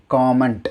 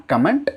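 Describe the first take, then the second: First: Comment with an open long O, KAW-ment; correct comment. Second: Comment with a short U, KUH-ment; mispronounced comment. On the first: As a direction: lengthen the first vowel of comment: kaw-ment. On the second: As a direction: say comment as kam-ment, short first vowel. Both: Shown as a demonstration. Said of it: "not comment".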